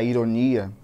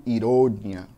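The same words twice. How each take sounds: First: "ironia" with its Portuguese stressed syllable. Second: "ironia" with the Spanish stressed syllable leaned on. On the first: Teacher giving students the Portuguese word for comparison, Portuguese stress on "ironia". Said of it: "A diferença de uma palavra e outra tá na sílaba tônica". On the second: Teacher showing how the tonic syllable differs in Spanish, stressed "ironia". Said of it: "com a sílaba mais forte lá no final". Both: Shown as a demonstration.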